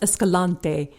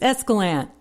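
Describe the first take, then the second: First: It follows the spelled-out pronunciation. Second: It follows the local pronunciation. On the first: This is how outsiders read the name. The speaker calls it wrong. "It looks like it should be pronounced Escalante" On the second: This is how locals say the name. The speaker calls it right. "the locals, it's Escalante"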